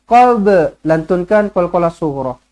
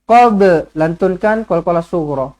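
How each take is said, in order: No difference in how they are said.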